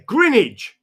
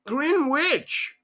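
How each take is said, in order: First: "Greenwich" as grin-idge, silent w; slow, high, emphatic "Greenwich", said GRIN-idge; local pronunciation. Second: "Greenwich" as two words, green-witch; high American-tourist "Greenwich", with the w sounded; American mispronunciation. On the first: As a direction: correct the tourist: "Greenwich" rhyming with spinach. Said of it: "I said, You're looking for a green witch?". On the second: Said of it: "That's my accent at the moment for the Americans". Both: Retold or imitated.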